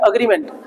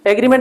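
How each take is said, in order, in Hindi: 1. पहला स्वर 'uh' जैसा सुनाई देता है। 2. पहला स्वर 'eh' जैसा सुनाई देता है।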